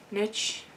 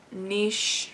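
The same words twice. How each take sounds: First: "niche" said as NITCH, short i, hard ch ending; second try, "niche" as NITCH. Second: "niche" said as NEESH, rhyming with quiche; niche said the French way. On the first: Vlogger corrects herself, tries NITCH quietly. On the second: Vlogger unsure how to say niche, tries NEESH. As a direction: try "niche" with a soft sh ending, NEESH. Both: Real, not acted. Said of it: "I'm not good with English, apparently".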